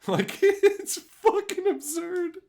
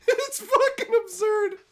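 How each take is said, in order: First: Very high, slow, laughing through. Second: "fucking" hit hard, very high and louder; emphatic. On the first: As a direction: giggle the words out. Laughing at absurd video. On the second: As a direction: stress "fucking" in a high yell. Repeating for emphasis. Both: Real, not acted.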